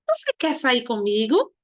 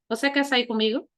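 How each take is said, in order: First: It is said with question intonation. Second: It is said flat, like a statement. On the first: The speaker calls it right. "Olha a entonação" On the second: The speaker calls it wrong. "Você não vai ler"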